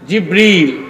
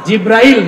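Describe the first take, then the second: First: The name is said with a short 'i' sound. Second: The name is said with a long 'ai' sound. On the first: The speaker calls it right. "একটু সঠিক প্রনাউন্সিয়েশনটা আপনারা শিখে যান" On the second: The speaker calls it wrong. "না"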